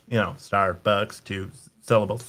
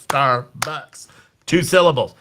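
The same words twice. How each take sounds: First: Quietly sounding out "Starbucks" syllable by syllable; muttered syllable count. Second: "Starbucks" split clearly into two beats, spoken up; syllable count out loud. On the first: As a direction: softly tap out "Star-bucks" to yourself. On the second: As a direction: count out "Star-bucks" for the audience. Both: Shown as a demonstration. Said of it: "do that to figure out syllables".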